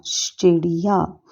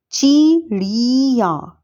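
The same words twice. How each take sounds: First: चिड़िया with short i on च and ड़, said slowly; 바른 발음으로 천천히 또박또박; correct form. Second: 찌리야처럼 끌어 읽는 틀린 형태; slowly stretched चिड़िया as the misspelled form; wrong spelling read out. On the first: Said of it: "जबकि शुद्ध है". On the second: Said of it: "जैसे अशुद्ध शब्द". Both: Shown as a demonstration.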